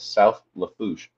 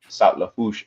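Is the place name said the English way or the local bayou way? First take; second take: English; local. First: The name is said with an English pronunciation. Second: The name is said with a local bayou pronunciation. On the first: "as English as I can" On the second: "as they say down the bayou"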